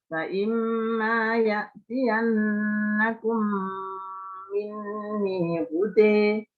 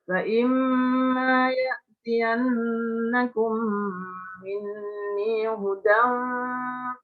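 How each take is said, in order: First: The last word ends in an 'e'-like vowel. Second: The last word ends in a plain 'an' sound. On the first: The reciter stops after this word. "Kalau berhenti ada bacaan imalah" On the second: The reciter carries on into the next words. "kalau Anda mewasalkan tidak dibaca imalah"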